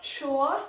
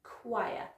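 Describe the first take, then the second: First: CHOIR misread as "chore", with a CH start; wrong pronunciation. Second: CHOIR said as "kwy-uh", with a KW start; correct pronunciation. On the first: Teacher shows what to avoid, mispronounced CH start. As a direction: say "chore" as the mistaken reading. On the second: Teacher corrects a misreading, careful kwy-uh. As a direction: give "choir" its KW sound, carefully. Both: Shown as a demonstration. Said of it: "So not chore".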